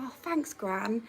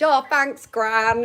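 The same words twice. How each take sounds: First: A soft, much quieter "Oh, thanks, Gran", playing poorly; feeble thanks. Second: A louder, bright "Oh, thanks, Gran", all perked up; cheery thanks. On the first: Truanting girl softly thanks her gran, mock poorly. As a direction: breathe "Oh, thanks, Gran" like a sick child. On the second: Retold or imitated. Girl cheerfully thanks her gran for the sandwich, louder. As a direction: sing out "Oh, thanks, Gran" happily.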